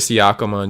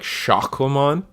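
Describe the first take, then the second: First: The name begins with separate 's' and 'y' sounds. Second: The name begins with a single 'sh' sound. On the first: "there's a Y in that clam" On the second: "It's supposed to be pronounced like Shakomon"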